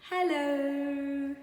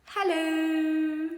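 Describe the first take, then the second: First: Higher drawn-out hello from the puppy; a dog greeting the street with a word; puppy saying hello. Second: Drawn-out high, loud hello from the puppy; a dog surprising everyone with a word; puppy saying hello. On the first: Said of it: "He said". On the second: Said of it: "And George went". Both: Acted.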